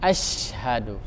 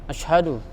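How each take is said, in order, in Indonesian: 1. Bunyi sh jelas didesiskan. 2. Bunyi sh lemah, dengan sedikit desisan. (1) "Jadi jelas didesiskan itu asyhadu" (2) "orang sekedar membuka mulut asyhadu, asyhadu, tanpa jelas uh, sifat apa mendesisnya"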